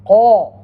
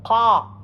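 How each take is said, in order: First: "Qa" hit loudly and rounded towards qo; rounded Qaf. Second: "Qa" with an open, unrounded a; open Qaf. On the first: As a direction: round the lips on "Qa" so it nears qo, loud. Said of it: "no more rounded to your mouth". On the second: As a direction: open the jaw on "Qa", lips not rounded. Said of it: "This is different". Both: Shown as a demonstration.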